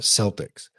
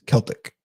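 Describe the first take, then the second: First: The word begins with an S sound. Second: The word begins with a K sound. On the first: It names the basketball team. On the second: It refers to Irish culture, like a jig.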